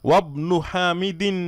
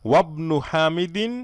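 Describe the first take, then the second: No difference in how they are said.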